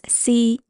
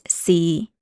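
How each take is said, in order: First: The syllable is said in tone one. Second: The syllable is said in tone six. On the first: "tone one is C" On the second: "Tone six is C"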